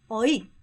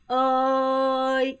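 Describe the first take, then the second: First: It is cut short and abrupt. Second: It is level and softly drawn out.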